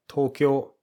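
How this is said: It is said with Japanese pitch and vowels. The speaker calls it right. "we pronounce Tokyo like Tokyo"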